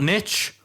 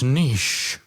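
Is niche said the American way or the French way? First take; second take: American; French. First: Niche is said the American way, rhyming with riches. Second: Niche is said the French way, like neesh. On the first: The speaker calls it wrong. "taking the American pronunciation" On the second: The speaker calls it right. "We use the français pronunciation"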